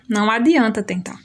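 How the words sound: It is said with a falling statement tune. It affirms that trying is useless. "é uma afirmativa"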